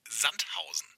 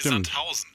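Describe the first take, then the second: First: The stress is on the first syllable. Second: The stress is on the second syllable. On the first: The speaker calls it right. "es hieße Sandhausen ... weil ja das Sand das Besondere wäre" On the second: The speaker calls it wrong. "und nicht Sandhausen ... und nicht das Hausen"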